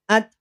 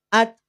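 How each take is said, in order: The two takes are said the same way.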